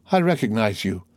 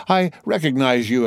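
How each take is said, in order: First: Said in the usual way. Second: Excited exclaim. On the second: A narrator's reading. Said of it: "exclaimed the king's attorney".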